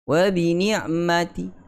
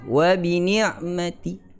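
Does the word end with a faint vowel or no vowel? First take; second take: faint vowel; faint vowel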